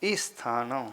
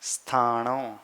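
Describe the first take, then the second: First: ई स्थानों with a short ई sounded before स्थ; wrong added i. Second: स्थानों starting straight on स्थ with no ई before it; correct cluster. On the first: Teacher imitates the common mistake in स्थाणौ. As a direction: add a little ई before स्थानों like common speakers. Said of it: "ई पहले बोलते हैं". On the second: Teacher gives the correct way after the mistake. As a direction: begin directly on the स्थ cluster. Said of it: "व्यवस्थित तरीके से बोलूँगा तो स्थानों". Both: Shown as a demonstration.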